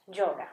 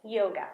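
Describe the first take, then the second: First: Yoga said as JOH-ga, close to a j; Spanish J-like y. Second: Yoga with a plain English y, YOH-ga. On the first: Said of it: "I'm gonna say yoga". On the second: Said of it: "I'm not gonna say yoga". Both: Shown as a demonstration.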